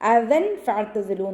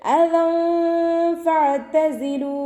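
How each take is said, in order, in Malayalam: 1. "f" മുമ്പുള്ള n ശബ്ദം വ്യക്തമായി ഉച്ചരിക്കുന്നു. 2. "f" മുമ്പുള്ള n ശബ്ദം മറച്ചുവെച്ച് മൂക്കിലൂടെ ഉച്ചരിക്കുന്നു. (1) "എന്ന് ഓതരുത്" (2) "അതുപോലെ ഓതുക"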